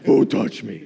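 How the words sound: It is said in a gruff, Batman-like voice. "the Batman version"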